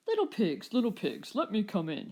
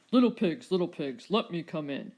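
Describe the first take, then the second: First: Called. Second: Loud, booming demand at the door; shouted. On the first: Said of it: "he called". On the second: Rex shouting at the door to the little dinos, loud and demanding. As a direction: bang out the call like a hungry bully. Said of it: "shouted the Rex". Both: A narrator's reading.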